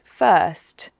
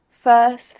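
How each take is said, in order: First: The final t sound is clearly pronounced. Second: The final t sound is dropped. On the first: "the t is pronounced on this first" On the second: "The t on this first isn't said"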